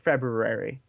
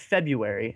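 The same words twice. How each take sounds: First: The word is said with the first r sound. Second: The word is said without the first r sound. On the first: "I found out there's an R in there, so now it's like February" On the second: "I always called it February"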